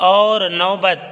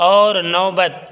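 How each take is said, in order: The two takes are said the same way.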